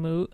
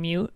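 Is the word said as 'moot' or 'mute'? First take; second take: moot; mute. First: The vowel is a plain 'oo' sound. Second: The vowel starts with a 'y' glide. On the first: The speaker calls it right. "a moot point or something being moot" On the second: The speaker calls it wrong. "is being mute"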